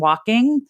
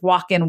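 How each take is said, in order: First: The ending is said with the final g sound. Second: The ending is said without the final g sound.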